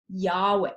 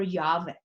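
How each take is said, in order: First: Yahweh said YAH-way, set apart; w pronunciation. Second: Yahweh said YAH-vay; v pronunciation. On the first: Teacher revealing the name God finally gives, Yahweh with a W. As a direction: say Yahweh on its own, W in the middle. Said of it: "can be pronounced Wa". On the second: Teacher adding the other option for the class, Yahweh with a V. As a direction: swap the middle of Yahweh to a V. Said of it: "more commonly is pronounced Va". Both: Shown as a demonstration.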